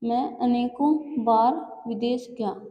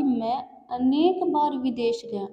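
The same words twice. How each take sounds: First: Slow read of the wrong form अनेकों. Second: अनेक said cleanly, stressed, without -ों; corrected form. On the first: Hindi teacher reads out the incorrect sentence, slowly. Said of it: "अनेकों नहीं आएगा". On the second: Teacher gives the corrected sentence, stressing अनेक. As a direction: lean on अनेक as the right word. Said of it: "आएगा कि मैं अनेक बार विदेश गया". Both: Shown as a demonstration.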